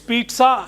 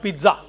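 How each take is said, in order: First: The middle sounds like 'ts', as in 'Pete sa'. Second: The middle sounds like a plain 'z' sound. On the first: The speaker calls it right. "It's pizza" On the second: The speaker calls it wrong. "not pizza"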